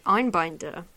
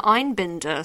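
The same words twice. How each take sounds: First: "Einbinder" with bind as in tie up; long-i pronunciation. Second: "Einbinder" with bin as in trash bin; short-i pronunciation. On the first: Offering the other reading of a nominee's name, "Einbinder" with a long middle i. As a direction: say "Einbinder" as INE-bine-der. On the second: Reading nominee names, unsure, "Einbinder" with a short middle i. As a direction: say "Einbinder" as INE-bin-der. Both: Shown as a demonstration. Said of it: "Could be either for Hacks".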